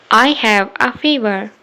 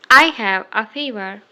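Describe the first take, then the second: No difference in how they are said.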